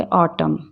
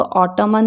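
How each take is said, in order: First: Said in the usual way. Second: ऑटमन with the silent n sounded at the end; extra n syllable closing ऑटमन; wrong pronunciation. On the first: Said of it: "क्या बोलेंगे?". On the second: Shown as a demonstration. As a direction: say ऑटमन as "autuman", final n voiced. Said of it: "ऑटमन में ही बोलेंगे".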